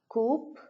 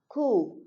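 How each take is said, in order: First: The p sound is pronounced. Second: The p sound is silent. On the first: The speaker calls it wrong. "are pronounced as" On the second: The speaker calls it right. "the P sound is actually silent in those words"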